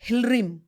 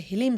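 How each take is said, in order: First: The word is said with an r sound. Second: The word is said without an r sound. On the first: This is the original form. "उनका real मंत्र है हिलरीम" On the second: This is the commonly used form. "लोग common जो मंत्र है हिलीम सोचते हैं"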